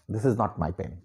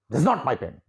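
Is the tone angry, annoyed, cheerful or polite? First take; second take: annoyed; angry. First: It is said in an irritated, annoyed tone. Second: It is said in a sharp, angry tone. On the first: "you become annoyed, and then the same sentence you speak in a different mood" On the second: "And when you become angry"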